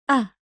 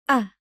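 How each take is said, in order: Both takes have the same delivery.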